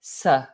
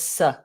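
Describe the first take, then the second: First: The syllable has a short reduced schwa vowel. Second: The same.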